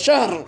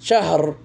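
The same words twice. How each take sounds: First: The h and r are cut hard, no vowel. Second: The h is eased, with a slight vowel after. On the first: "খুব কঠিনভাবে এই জায়গাতে hard break করে" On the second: "আরবদের মতো একটু মুতাসাহিল শাহর এভাবে বলে"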